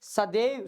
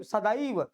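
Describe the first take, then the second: First: सदैव with plain e, sa-dev; wrong pronunciation. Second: सदैव with an opened ai, sa-daa-iv; correct pronunciation. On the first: Teacher contrasts exam word for students, mispronounced. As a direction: say सदैव without the ai glide. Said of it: "वो गलत है". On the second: Teacher gives students the right form, careful pronunciation. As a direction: glide from a to i inside सदैव. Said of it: "तो ऐसे बोलेंगे". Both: Shown as a demonstration.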